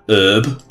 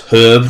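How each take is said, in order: First: The word begins without any H sound. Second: The word begins with an audible H sound. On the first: The speaker calls it wrong. "not herb. It's awful" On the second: The speaker calls it right. "It's herb"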